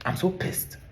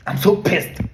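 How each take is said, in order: First: Hissed under the breath, barely voiced; seething whisper. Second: Louder, raised breathy outburst; furious hiss. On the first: Ranting vlogger mutters his fury, seething whisper. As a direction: let the anger leak out in a whisper. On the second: Ranting vlogger erupts at the politicians, furious hiss. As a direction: spit it out, boiling over. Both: Real, not acted.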